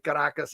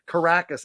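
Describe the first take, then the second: First: It is said with a Spanish accent. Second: It is said with an English accent. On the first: The speaker calls it right. "I say ... perfect enunciation" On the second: The speaker calls it wrong. "I don't say"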